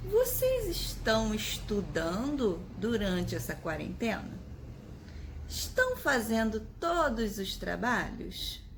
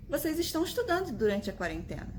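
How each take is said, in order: First: Slow questioning tune rising on Vocês; asking tone. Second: Quick, flat statement falling at the end; stating tone. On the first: Teacher asking her students about their quarantine study. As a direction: ask it slowly, clearly a question. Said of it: "Tá vendo a minha expressão?". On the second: Teacher showing students the question read as a statement. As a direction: say it fast as a plain fact. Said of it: "Tá vendo como ficou diferente?". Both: Shown as a demonstration.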